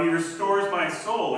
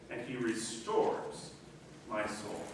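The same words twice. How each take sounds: First: "restores" pressed hard, loud and slow; emphatic quote. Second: Soft quote. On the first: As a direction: declare "he restores my soul" firmly. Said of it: "same phrase re-read, loud and slow". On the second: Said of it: "psalm phrase re-read, soft and slow". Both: Shown as a demonstration.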